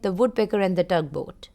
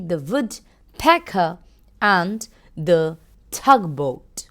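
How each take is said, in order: First: The words flow smoothly at a normal pace. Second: Each sound is stressed slowly and distinctly. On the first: "normal reading का example है" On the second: "अगर मैं phoenix में पढ़ूंगी"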